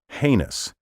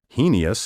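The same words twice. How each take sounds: First: The word is said with the dictionary pronunciation. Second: The word is said with a nonstandard pronunciation. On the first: The speaker calls it right. "The only pronunciation recognized by dictionaries is heinous" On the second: The speaker calls it wrong. "mispronounce this word as"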